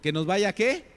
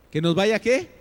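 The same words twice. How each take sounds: First: Said in the usual way. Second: "qué" pushed up and much louder; louder rhetorical question. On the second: Shown as a demonstration. Preacher pressing the congregation for an answer, louder and rising on "qué".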